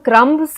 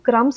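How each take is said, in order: First: The b sound is pronounced before the s. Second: The b sound is left out entirely. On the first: The speaker calls it wrong. "यानी हम क्रम्ब्स नहीं बोलते" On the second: The speaker calls it right. "हम क्रम्स बोलते हैं"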